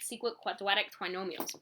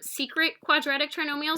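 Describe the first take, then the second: First: It is said in a lisping, cartoonish put-on voice. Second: It is said in a normal, clearly enunciated voice.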